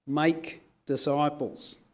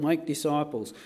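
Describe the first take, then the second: First: "make disciples" slow, each word weighed; slow down and press "make disciples"; stress on make disciples. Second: Said in the usual way. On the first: Shown as a demonstration. Preacher correcting the emphasis, slow and firm. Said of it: "The emphasis in the original Greek is upon the verb make disciples". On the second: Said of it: "put the emphasis on the going".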